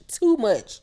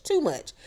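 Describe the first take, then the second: First: Mocking tsk of too much; sassy repeat. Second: Too much said higher and softer as an echo. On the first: Scolding the housewives, with sassy attitude. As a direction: toss it off with attitude. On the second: Echoing her own scolding of the cast, high and soft. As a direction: lift Too much up high and let it fade. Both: Real, not acted. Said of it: "y'all be doing too much".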